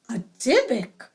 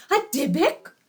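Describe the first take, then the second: First: Falling alarmed exclamation. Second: Startled rising question; shocked question. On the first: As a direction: declare it in alarm. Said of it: "exclaimed the guests". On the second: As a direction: gasp it out in disbelief. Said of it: "exclaimed Leah's parents". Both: Acted.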